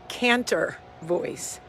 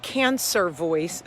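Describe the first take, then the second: First: "Cantor" with a crisp T in the middle; slow, corrective "Cantor" with the T sounded. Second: "cancer" with an S sound in the middle; slow "cancer", S where the T would be; wrong word cancer. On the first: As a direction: say "Cantor" slowly, a clear T, no S. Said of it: "Cantor, not cancer". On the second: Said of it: "No, not cancer voice". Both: Shown as a demonstration.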